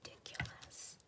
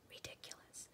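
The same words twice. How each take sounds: First: Whisper. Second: A breathy whisper, even quieter; softer whisper. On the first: Whispering a word while crafting. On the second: Crafter whispering to her viewers, barely audible. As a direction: let the word fade into an almost silent whisper. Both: Real, not acted.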